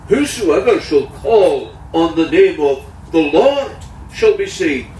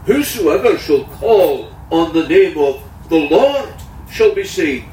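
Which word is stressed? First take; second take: Lord; Lord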